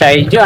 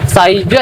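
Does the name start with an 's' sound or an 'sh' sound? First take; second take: sh; s. First: The name begins with an 'sh' sound. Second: The name begins with a plain 's' sound. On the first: The speaker calls it right. "ഷൈജു ആണേ" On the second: The speaker calls it wrong. "സൈജു അല്ല കേട്ടോ"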